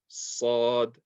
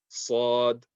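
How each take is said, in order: Both takes have the same delivery.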